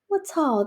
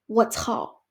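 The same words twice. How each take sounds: First: It sounds excited and screamed. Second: It sounds angry and shouted.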